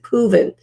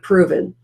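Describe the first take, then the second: First: The R sound is weak and unclear. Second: The R sound is clear and full. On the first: The speaker calls it wrong. "I think I said proven" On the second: The speaker calls it right. "instead of proven"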